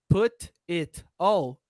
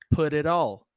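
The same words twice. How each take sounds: First: The words are separate with clear t sounds. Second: The words run together with r-like t sounds.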